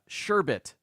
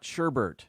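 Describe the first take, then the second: First: The second syllable has no R sound. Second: The second syllable has an R sound. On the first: The speaker calls it right. "There's only one R in the word" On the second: The speaker calls it wrong. "not sherbert"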